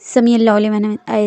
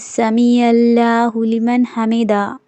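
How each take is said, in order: First: The phrase is said quickly without pauses. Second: The phrase is said slowly with pauses. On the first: The speaker calls it wrong. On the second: The speaker calls it right.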